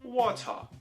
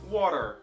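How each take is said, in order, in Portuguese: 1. O t do meio é um som de t claro. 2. O t do meio soa como um r batido rápido. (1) "Em inglês britânico" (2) "em inglês americano"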